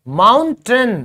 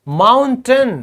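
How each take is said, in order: Both takes have the same delivery.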